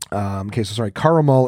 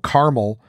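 First: The word is said with three syllables. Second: The word is said with two syllables. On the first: This is the original pronunciation. "Caramel is the original way and still the preferred way" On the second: This was once a regional pronunciation. "which was once a Midwestern regional pronunciation, is also acceptable"

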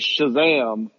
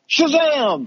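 First: The word is said calmly, in a plain voice. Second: The word is said loudly, with gusto. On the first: The name is only being stated. "when he says his name, like" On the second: The name is being called out to summon the power. "if he's got to say it with gusto"

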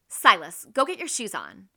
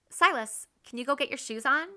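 First: It sounds impatient and angry. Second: It sounds loving and patient.

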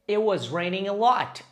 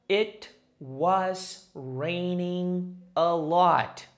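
First: It is said fast. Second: It is said slowly.

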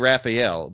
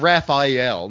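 First: The name is said without an 'eye' sound. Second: The name is said with an 'eye' sound. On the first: The speaker calls it right. "So it's definitely Raphael" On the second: The speaker calls it wrong. "but not Raphael. Not, you know, where's the I, folks?"

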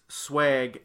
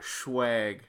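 First: The word begins with a plain s sound. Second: The word begins with a shw sound. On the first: The speaker calls it right. "it's swag" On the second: The speaker calls it wrong. "not schwag"

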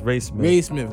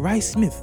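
First: The first name is said like 'Ray'. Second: The first name is said like 'Rod'. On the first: The speaker calls it right. "it's Ray Smith" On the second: The speaker calls it wrong. "that's how they pronounce it on iTunes"

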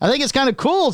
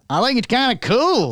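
First: It is said in a plain neutral accent. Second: It is said in a Southern American accent.

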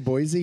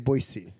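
First: The middle consonant is a z sound. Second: The middle consonant is an s sound. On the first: The speaker calls it wrong. "You don't say Boise" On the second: The speaker calls it right. "you say Boise"

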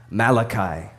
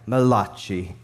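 First: The name is said in a plain accent. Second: The name is said in an Italian accent.

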